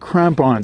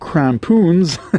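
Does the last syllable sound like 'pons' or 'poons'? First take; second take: pons; poons. First: The last syllable sounds as it is spelled. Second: The last syllable has a long oo vowel. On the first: The speaker calls it right. "it's pronounced the same way that it's spelt" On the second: The speaker calls it wrong. "I called them crampoons"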